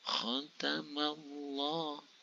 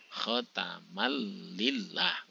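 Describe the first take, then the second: First: The 'l' in Allah sounds heavy and thick. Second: The 'l' in Allah sounds light and thin. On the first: The speaker calls it right. "harus dibaca tebal" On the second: The speaker calls it wrong. "salah, jadi tipis"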